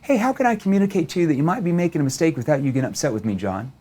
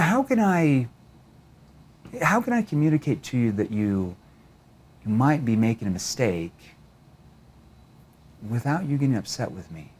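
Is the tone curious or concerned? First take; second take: curious; concerned. First: It is said in a light, curious tone. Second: It is said in a serious, concerned tone.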